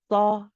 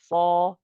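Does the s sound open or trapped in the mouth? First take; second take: open; trapped. First: The s sound flows out freely, not trapped. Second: The s sound is held back, trapped inside. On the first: The speaker calls it wrong. "If I wasn't trapping it, it would sound like this" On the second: The speaker calls it right. "It's like you're trying to keep it inside"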